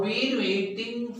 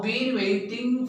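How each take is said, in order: No difference in how they are said.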